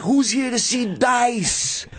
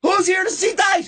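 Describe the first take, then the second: First: High, stretched announcer-style call; imitating Dice. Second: Very high crowd-rousing holler; onstage hype call. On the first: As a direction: coach the opener with a sample rallying cry. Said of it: "And then be like". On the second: Retold or imitated. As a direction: call out to the whole theater. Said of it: "I walk out, I go".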